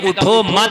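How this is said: The pause comes right after 'मत'.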